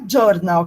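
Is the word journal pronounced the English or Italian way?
Italian. The word is pronounced in an Italian way. "não é journal que ela pronuncia"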